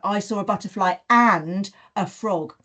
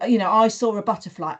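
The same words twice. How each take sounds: First: And leaned on in the sentence; stress on and. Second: Said in the usual way. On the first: Shown as a demonstration. Teacher modelling for children, leaning on and. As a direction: lean on the word and as you add it. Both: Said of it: "I will emphasize that word".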